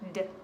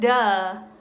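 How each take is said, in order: First: The consonant is clipped, with no vowel after. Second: The consonant ends with an added uh vowel. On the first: The speaker calls it right. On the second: The speaker calls it wrong.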